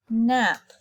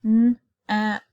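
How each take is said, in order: First: Said in the usual way. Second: "N-ap" split, louder; segmented word. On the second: Shown as a demonstration. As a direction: sound out "N-ap".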